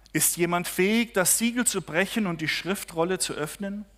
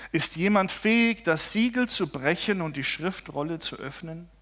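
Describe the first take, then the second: No difference in how they are said.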